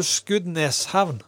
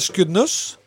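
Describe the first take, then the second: First: "Skudeneshavn" with -nes before havn. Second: "Skudenes" said as "Skuddnuss"; u in last syllable. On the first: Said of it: "og så sier du". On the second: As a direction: say "Skudenes" with -nuss at the end. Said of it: "en U i plass av en E". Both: Shown as a demonstration.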